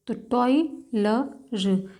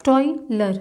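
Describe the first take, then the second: First: टॉयलर stretched very slowly, syllable by syllable; teacher stretching टॉयलर so students hear each part; drawn out slowly. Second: Said in the usual way. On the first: Shown as a demonstration. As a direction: pull टॉयलर apart slowly for the class.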